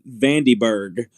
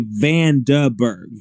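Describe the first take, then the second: First: "Vandyberg" with an ee in the middle; guessed pronunciation. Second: "Vandenberg" slowly, as Van-duh-berg; corrected pronunciation. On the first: Presenter admitting the guessed name, mispronounced as Van-dee-berg. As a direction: say "Vandyberg" to rhyme its middle with candy. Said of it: "I was thinking more like Dinkelberg". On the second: Presenter settling on the station's way, carefully sounded out. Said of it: "but I'm gonna say Vandenberg". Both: Shown as a demonstration.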